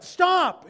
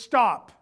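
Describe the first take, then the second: First: High, loud command "Stop!"; shouted stop. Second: Firm stop. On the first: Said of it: "we need to hear that". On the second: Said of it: "could be translated just". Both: Shown as a demonstration.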